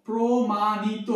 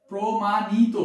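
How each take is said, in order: First: প্রমাণিত stretched slowly, syllable by syllable; প্রমাণিত drawn out, ending on o; slow demo word. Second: Said in the usual way. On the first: Shown as a demonstration. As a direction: spell out প্রমাণিত slowly as promanito. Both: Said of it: "ইত, প্রমাণিত".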